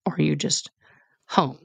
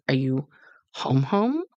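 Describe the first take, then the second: First: "home" said once, set apart after a pause, falling; just HOME. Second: "home, home" doubled, pitch lifting into a question. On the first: Contrasts it with just visiting. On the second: Mother asks daughter if she's back for good, questioning "home, home". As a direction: ask it with "home, home" rising, meaning truly home. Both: Retold or imitated.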